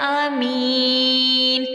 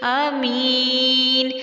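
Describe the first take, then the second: Both takes have the same delivery.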